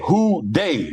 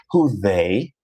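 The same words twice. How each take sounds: First: "they" said DAY with a D, high and falling; Cincinnati "Who Dey". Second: "they" with a careful TH, rising as a question; proper "Who they". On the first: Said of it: "D E Y". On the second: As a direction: enunciate the TH in "they", tone lifting at the end. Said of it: "We don't say". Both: Shown as a demonstration.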